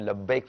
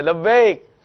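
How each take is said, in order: First: Soft, reverent "لبیک"; gentle reply. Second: Higher, louder "لبیک" called from the next room; eager reply. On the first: Shown as a demonstration. Preacher recalling the Prophet's reply to his servants, soft and reverent. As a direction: answer tenderly. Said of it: "جواب میں "لبیک" فرمایا کرتے تھے". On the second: Retold or imitated. Wife answering her husband's call from the kitchen, loud and eager. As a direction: answer brightly at once. ادھر سے آواز آئے.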